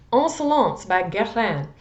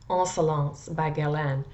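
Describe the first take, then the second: First: Insolence by Guerlain said higher and louder, a more deliberate French on each word; careful French try. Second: Insolence by Guerlain with a hesitant Midwest French, Guerlain like kel-lan; first stab at Insolence by Guerlain, unsure of the French; rough French pronunciation. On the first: Reviewer retries the French name for viewers, higher and louder. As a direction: announce Insolence by Guerlain with a bold French attempt. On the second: Perfume reviewer fumbling the French name, hesitant Midwest French.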